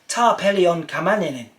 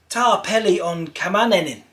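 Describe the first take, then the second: The two takes are said the same way.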